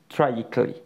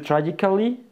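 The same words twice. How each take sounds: First: The 'al' syllable is dropped. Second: The 'al' syllable is fully pronounced. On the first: The speaker calls it right. "la pronunciación será tragically" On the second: The speaker calls it wrong. "En vez de tragically"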